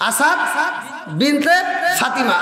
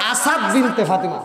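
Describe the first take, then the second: First: "Asad", "Binte", "Fatima" apart, with pauses; word-by-word naming. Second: Said in the usual way. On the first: Shown as a demonstration. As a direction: lift "Asad" and "Binte", let "Fatima" fall. Repeats the name piece by piece.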